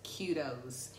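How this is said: Kudos is said with an American pronunciation. "my American coach says kudos"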